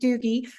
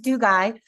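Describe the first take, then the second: First: The name ends with an 'ee' sound. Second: The name ends with an 'eye' sound. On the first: This is the common pronunciation. The speaker calls it wrong. "Everybody pronounces it Doogie" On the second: This is the name's true pronunciation. The speaker calls it right. "but it's Dugai"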